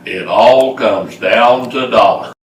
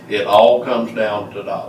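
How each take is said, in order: First: It is said with strong, lively feeling. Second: It is said in a plain, flat way.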